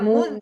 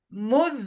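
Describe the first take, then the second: First: The final z ends with a bouncing release. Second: The final z flows on without any bounce. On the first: The speaker calls it wrong. "Tidak boleh ada muz" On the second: The speaker calls it right. "Jadi yang betul muz"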